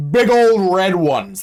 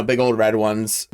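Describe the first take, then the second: First: Put-on big old red ones, slow and punched; emphatic. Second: Said in the usual way. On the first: Shown as a demonstration. Retelling the movie, stressing the girls' red houses.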